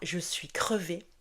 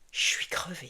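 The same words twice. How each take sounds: First: Je and suis are pronounced fully and separately. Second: Je becomes ch, merged into one syllable chuis. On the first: The speaker calls it wrong. "on ne dira pas" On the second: The speaker calls it right. "Le je se transforme en ch et on fait la liaison"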